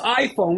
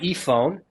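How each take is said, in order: First: The word begins with an 'eye' sound. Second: The word begins with an 'ee' sound. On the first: The speaker calls it right. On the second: The speaker calls it wrong.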